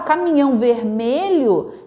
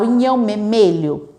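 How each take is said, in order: First: Every sound in the words is pronounced fully. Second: Sounds are dropped and swapped like a toddler's. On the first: The speaker calls it right. "uma forma de falar melhor aquilo" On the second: The speaker calls it wrong. "repetir a palavra errada"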